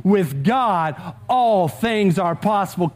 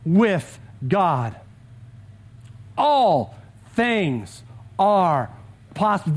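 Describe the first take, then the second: First: Said in the usual way. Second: Slow, with long pauses between words; slow proclamation. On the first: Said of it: "That one's worth saying out loud with me". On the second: Shown as a demonstration. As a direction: let every word land, pause before "possible". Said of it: "The first one is this".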